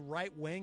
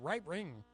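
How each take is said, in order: First: The phrase is said in an ordinary, clear way. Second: The phrase is said in a distorted, exaggerated way. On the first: "when I say right wing" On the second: "it comes out right wing. I mean, I'm exaggerating now"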